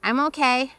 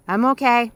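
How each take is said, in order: First: A hint of a strained, tight reply. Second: Louder reassurance shouted back; called reply. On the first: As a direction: hold back tears, lightly. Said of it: "but my voice is tight". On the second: Acted. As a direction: answer firmly across the water. Dad answering across river.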